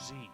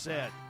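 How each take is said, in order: First: The letter is said the American way, 'zee'. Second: The letter is said the Canadian way, 'zed'.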